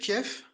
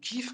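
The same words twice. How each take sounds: First: The name is said the traditional French way. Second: The name is said the Ukrainian way. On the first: This is the older usual name. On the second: This is the name as now used.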